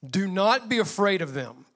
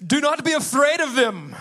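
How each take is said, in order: First: It is said in the speaker's normal voice. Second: It is said in a put-on heroic character voice.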